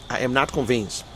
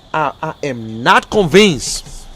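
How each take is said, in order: First: Lower, softer repeat; subdued doubt. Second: Slow, weighty NOT CONVINCED; emphatic doubt. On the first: Doubter restating position to viewers, subdued doubt. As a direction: settle quietly into your doubt. Same words repeated as low aside. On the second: Doubter addressing viewers about the container, emphatic doubt. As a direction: spell out "not convinced" slowly and firmly. Same words first said with emphasis. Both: Real, not acted.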